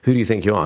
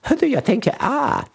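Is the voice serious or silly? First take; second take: serious; silly. First: It is said in a plain, serious voice. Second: It is said in a silly, ridiculous voice. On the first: The thought is taken seriously. "like a tape loop going around" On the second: The thought cannot be taken seriously. "change the tone of it"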